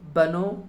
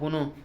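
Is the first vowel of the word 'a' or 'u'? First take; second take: a; u. First: The first vowel is a long 'a'. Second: The first vowel is a short 'u'. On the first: The speaker calls it wrong. "এটা বানো হবে না" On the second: The speaker calls it right. "বুনো হবে"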